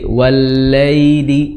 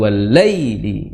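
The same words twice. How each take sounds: First: The 'ya' sound is soft, without a jolt. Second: The 'ya' sound is pushed out with a jolt. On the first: The speaker calls it right. "Hentakannya dikurangi" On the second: The speaker calls it wrong. "bukan wallaili"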